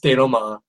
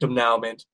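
First: It is pronounced the French way. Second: It is pronounced the way the spelling reads. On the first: The speaker calls it right. "It's denouement. Get it right" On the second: The speaker calls it wrong. "if you read the words, it looks like denouement, but it's not"

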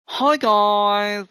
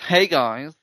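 First: It is read in a camp voice. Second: It is read in a plain voice.

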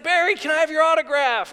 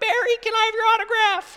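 First: It is said in his normal, deeper voice. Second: It is said in a higher, little boy's voice.

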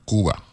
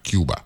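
First: Cuba is said with the local island pronunciation. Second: Cuba is said with the usual English pronunciation. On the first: The speaker calls it right. "That's how they're pronouncing it down there" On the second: The speaker calls it wrong. "Not Cuba"

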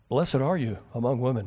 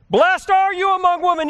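First: It is read flatly, with little energy. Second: It is read loudly, with excited energy. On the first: The speaker calls it wrong. "Please don't ever read it that way" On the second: The speaker calls it right. "she's excited. This is not a Prozac moment"

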